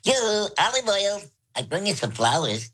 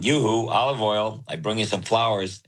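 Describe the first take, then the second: First: It is said in a high voice. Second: It is said in a low voice.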